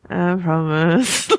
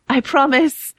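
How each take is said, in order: First: It is mumbled indistinctly. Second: It is spoken brightly and clearly. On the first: The promise seems half-hearted. "Like she kind of mumbles it" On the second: The promise seems sincere. "bright and clear"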